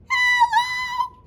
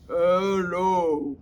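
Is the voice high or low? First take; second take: high; low. First: It is said in a very high voice. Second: It is said in a very low voice.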